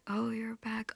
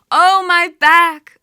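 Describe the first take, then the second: First: Soft echo. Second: High, loud grief-stricken wail, drawn out; wailing cry. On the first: Creatures quietly echoing the goddess's pain, soft murmured echo. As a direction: murmur it back gently. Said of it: "And they say". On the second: Goddess in the underworld wailing for her husband, loud keening wail. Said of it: "she's crying out". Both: Acted.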